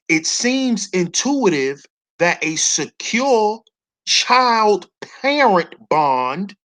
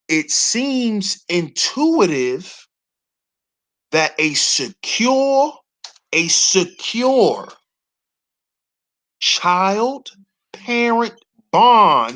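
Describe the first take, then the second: First: It is read at a normal pace. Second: It is read slowly.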